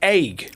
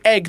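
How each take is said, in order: First: The word is said in an American accent. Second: The word is said in the speaker's own accent. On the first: "they say egg" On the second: "they don't say egg"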